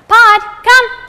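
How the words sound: It is said in a cheerful, excited tone.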